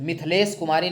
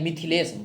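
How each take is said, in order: First: मिथिलेश said "Mithlesh", without i after th; wrong pronunciation. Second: मिथिलेश said "Mithilesh", with short i on थ; correct pronunciation. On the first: Teacher rejecting the printed spelling, मिथिलेश as "Mithlesh". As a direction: drop the middle i from मिथिलेश. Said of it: "नहीं". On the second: Teacher giving the right spelling, मिथिलेश as "Mithilesh". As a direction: sound the middle i in मिथिलेश. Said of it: "थ पे छोटी का मात्रा होता है". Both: Shown as a demonstration.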